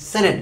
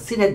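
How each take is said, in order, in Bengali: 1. প্রথম স্বরধ্বনিটি 'eh' এর মতো শোনায়। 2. প্রথম স্বরধ্বনিটি 'ee' এর মতো শোনায়। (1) "ইন্টারন্যাশনালি সেনেট বলা হয়" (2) "প্রচলিত উচ্চারণে আমরা সিনেট বলে থাকি"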